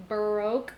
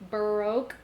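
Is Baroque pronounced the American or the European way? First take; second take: American; American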